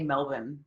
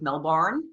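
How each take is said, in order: First: The name is said the Australian way. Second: The name is said the American way. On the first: The speaker has adopted the local pronunciation. "how you say Melbourne" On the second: This is how an American would usually say it. "as an American instead of Melbourne"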